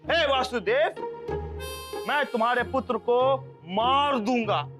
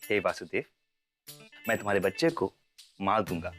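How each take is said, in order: First: It is said loudly with a forceful voice. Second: It is said softly, like a lullaby.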